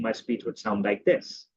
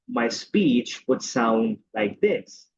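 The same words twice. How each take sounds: First: The words are short and quick. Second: The words are stretched out and slow.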